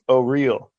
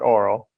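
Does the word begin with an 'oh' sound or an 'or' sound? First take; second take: oh; or. First: It begins with an 'oh' sound. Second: It begins with an 'or' sound. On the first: The speaker calls it right. "It's oh real" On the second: The speaker calls it wrong. "oral is not oral"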